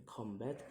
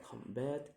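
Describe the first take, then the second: First: Said in the usual way. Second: "combat" in two beats, the second lifted; syllable by syllable. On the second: Shown as a demonstration. Teacher demonstrating syllables, "combat" split with raised end. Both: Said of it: "the syllable is".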